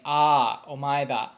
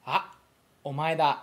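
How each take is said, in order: First: "Ah" held long and louder before "omae da"; without small tsu. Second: "omae da" with the "Ah" cut short by a glottal stop; Japanese with small tsu. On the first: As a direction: let the Ah ring out, no stop. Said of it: "instead of saying". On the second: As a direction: clip the Ah sharply, then omae da. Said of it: "when you pronounce it in Japanese, it's kinda like". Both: Shown as a demonstration.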